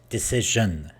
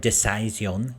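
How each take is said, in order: First: The consonant before the ending is voiced zh. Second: The consonant before the ending is not zh. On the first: The speaker calls it right. "it's decision" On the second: The speaker calls it wrong. "or decision"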